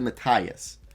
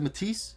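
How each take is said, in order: First: The name is pronounced a non-French way. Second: The name is pronounced the French way.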